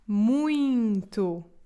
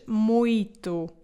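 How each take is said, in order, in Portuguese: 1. O meio diz-se com som nasal. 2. O meio diz-se sem som nasal. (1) "esta palavra tem um som nasal no meio" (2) "não se diz muito"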